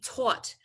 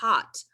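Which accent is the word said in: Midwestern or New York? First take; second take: New York; Midwestern. First: The word is said in a New York accent. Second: The word is said in a Midwestern accent. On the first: "I said it with such a strong New York accent" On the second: "taught Midwestern"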